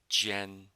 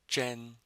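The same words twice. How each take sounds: First: The first sound is made with the tongue flat. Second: The first sound is made with the tongue curled back. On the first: "Without my tongue curled" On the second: "With my tongue curled"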